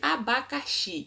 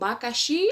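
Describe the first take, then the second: First: The word is said in full, with every syllable. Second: The word is shortened, losing its first syllable. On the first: "ao invés de abacaxi" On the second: "algumas pessoas falam bacaxi"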